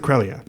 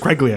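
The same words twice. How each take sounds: First: The G sound is silent in the name. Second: The G sound is pronounced in the name.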